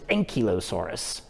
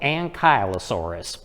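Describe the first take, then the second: First: It is said the British way. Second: It is said the American way. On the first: The speaker calls it right. "over in the U K, they pronounce it" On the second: The speaker calls it wrong. "here in America, some people call it"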